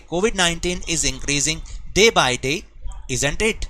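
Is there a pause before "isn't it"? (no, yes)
yes. A short pause comes before "isn't it". The speaker calls it right. "Comma का मतलब है कि आपको थोड़ा सा पॉज देना है।"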